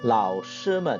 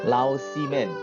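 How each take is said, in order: First: The middle syllable begins with a sh sound. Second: The middle syllable begins with an s sound. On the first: The speaker calls it right. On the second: The speaker calls it wrong.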